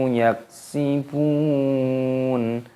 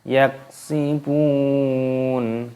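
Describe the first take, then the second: No difference in how they are said.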